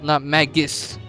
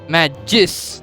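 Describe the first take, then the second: First: The g is hard, as in go. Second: The g is soft, like a j. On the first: The speaker calls it wrong. "not with a g" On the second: The speaker calls it right. "it's with a j"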